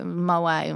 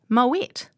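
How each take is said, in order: First: The word ends on a vowel, without t. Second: The word ends with a clear t sound. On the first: The speaker calls it wrong. "she corrects him" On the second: The speaker calls it right. "Moet is the correct, pron- correct pronunciation"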